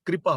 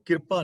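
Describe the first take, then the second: First: ਕਿਰਪਾ said "kri-pa", k and r joined; ਕਿਰਪਾ opening on a kr cluster; correct reading demo. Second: ਕਿਰਪਾ said "kir-pa", vowel before the r; ਕਿਰਪਾ with a short i straight after the k; wrong reading demo. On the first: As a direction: say ਕਿਰਪਾ as kri-pa, r straight after k. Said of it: "ਕਿਰਪਾ ਬੋਲਾਂਗੇ". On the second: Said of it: "ਨਹੀਂ ਪੜ੍ਹਨਾ". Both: Shown as a demonstration.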